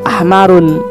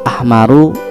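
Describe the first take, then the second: First: The word ends with a final n sound. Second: The word ends without a final n sound. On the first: The speaker calls it wrong. "kita sebutnya bukan ahmarun" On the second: The speaker calls it right. "tapi ahmaru"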